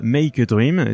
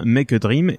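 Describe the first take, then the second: First: "Make" said with the English diphthong, /mɛik/; English pronunciation. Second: "Make" said like French "mec", /mɛk/; bad English accent. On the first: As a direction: Make a Dream with the English "ay" sound in "Make". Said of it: "et pas Make a Dream". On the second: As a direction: Make a Dream with the flat French vowel in "Make". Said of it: "j'ai un accent anglais effectivement tout pourri". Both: Shown as a demonstration.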